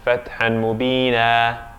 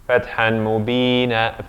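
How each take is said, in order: The two takes are said the same way.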